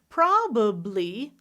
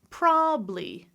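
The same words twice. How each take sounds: First: It is said with three syllables. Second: It is said with two syllables.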